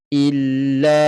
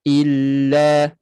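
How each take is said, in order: First: The L is held lightly and the voice keeps flowing. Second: The same.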